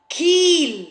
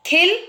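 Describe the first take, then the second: First: "खील" with a drawn-out ee; long stretched ee in "खील". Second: "खिल" short, with a rising pitch; quick "खिल" with short vowel. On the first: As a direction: hold the vowel in "खील". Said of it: "बड़ी ई में लगा देते". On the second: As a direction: keep the i in "खिल" brief. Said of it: "छोटी की आवाज़". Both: Shown as a demonstration.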